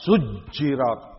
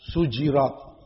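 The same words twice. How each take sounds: First: The j sound is doubled and held longer. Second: The j sound is short and single. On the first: This is the reading of most reciters. "membacanya dengan tasydid, dengan syiddah" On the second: This is the reading of Mecca and Basra. "Ahlu Makkah dan Basrah membacanya dengan takhfif"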